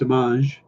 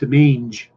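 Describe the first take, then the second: First: The name is said with a French sound. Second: The name is said with an English sound. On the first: The speaker calls it right. "I'm giving it a slight French uh, feel to it" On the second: The speaker calls it wrong. "I don't want to say it's Demange"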